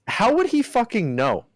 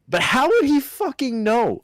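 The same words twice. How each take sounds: First: High, exasperated question; disbelieving outburst; incredulous. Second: High exasperated outburst. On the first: Incredulous rant about Jake Paul. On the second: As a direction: push the disbelief harder. Repeats the rant, louder. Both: Real, not acted.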